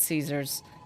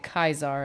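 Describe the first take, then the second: First: The name begins with an 's' sound. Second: The name begins with a 'k' sound. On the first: This is how the speaker herself says the name. "I know it's Caesar's" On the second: This is how others in the game say the name. "Everybody's pronouncing it Kaiser"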